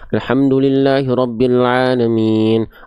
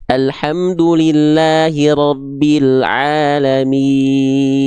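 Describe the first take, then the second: First: The vowels are mumbled and the articulation is unclear. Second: The vowels are fully formed and clearly articulated. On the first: The speaker calls it wrong. "seperti orang kumur-kumur, nggak jelas" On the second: The speaker calls it right. "sempurnakan itmamul harokatnya. Alhasil insya Allah pelafalannya akan jelas"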